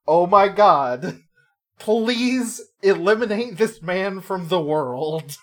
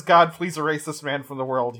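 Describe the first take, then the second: First: Slow, drawn-out plea, louder and higher; exasperated plea. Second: Said in the usual way. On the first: Retold or imitated. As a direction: beg the heavens in mock exasperation. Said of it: "And she's like". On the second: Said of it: "when she says".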